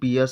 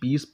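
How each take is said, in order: First: The word is said with two syllables. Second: The word is said as one syllable. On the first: The speaker calls it wrong. "इसको पियस नहीं" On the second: The speaker calls it right. "पीस पढ़ते हैं"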